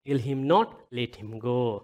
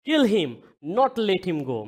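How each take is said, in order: First: There is a pause after the word 'not'. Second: There is a pause after the first 'him'. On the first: The person should not be killed but released. "त्यसलाई नमार जान देऊ" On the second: The person should be killed and not released. "मार जान नदेऊ"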